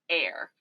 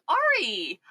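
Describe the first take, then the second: First: The name is said with one syllable. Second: The name is said with two syllables. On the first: The speaker calls it right. "saw that it was pronounced Air" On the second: The speaker calls it wrong. "right when I saw it, I was like"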